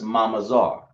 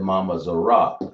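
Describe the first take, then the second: First: The last sounds are joined into one syllable. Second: The last syllable is split off with a vowel. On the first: The speaker calls it right. "you want to join this sound and that sound together" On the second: The speaker calls it wrong. "You said Mama Zara. But you, instead of saying Zara"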